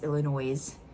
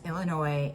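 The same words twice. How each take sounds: First: The final S is pronounced. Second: The final S is silent. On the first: The speaker calls it wrong. "if you put the S in it" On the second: The speaker calls it right. "it's a silent S"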